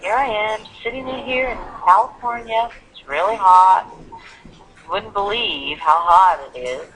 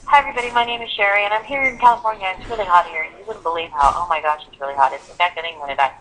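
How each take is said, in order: First: Hot said louder, how hot it is slowly drawn out; content words slowed. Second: Rushed, fast self-introduction with no pauses; too fast. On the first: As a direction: stretch the important words, let the rest flow. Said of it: "I didn't make every word long". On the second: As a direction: rattle it off without giving content words time. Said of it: "if something happens so quickly". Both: Shown as a demonstration.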